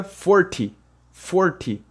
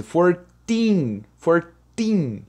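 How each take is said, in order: First: Forty with a clipped quick ty; short ty. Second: Put-on fourteen with the teen held long; stretched teen. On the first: Teacher contrasting a short ty with teen. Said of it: "ele é mais curto". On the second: Teacher modelling a long teen for students. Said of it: "Você dá essa esticada no teen". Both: Shown as a demonstration.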